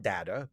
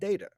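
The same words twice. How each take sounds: First: The first vowel is not a long A. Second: The first vowel is a long A. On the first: "not not Data" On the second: "pronounced it with the long A"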